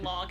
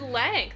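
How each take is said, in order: First: The vowel sounds like the one in honk. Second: The vowel sounds like the one in bank. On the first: The speaker calls it wrong. "I hate Lonk. It sounds gross. It's like it's like honk" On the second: The speaker calls it right. "That's my preferred pronunciation"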